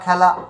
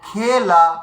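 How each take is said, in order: First: The first vowel is open, like 'ae'. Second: The first vowel is close, like 'e'. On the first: This is the everyday Bengali pronunciation. "খয়জা ফলা আকারে খ্যা, লয়াকারে লা খেলা" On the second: This is the Sanskrit pronunciation, as written. "লেখা রয়েছে কি ক্ষয়কারে খে, লয়াকারে লা"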